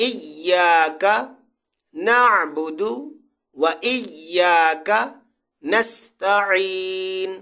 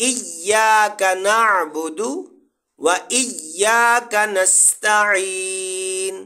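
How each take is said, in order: The two takes are said the same way.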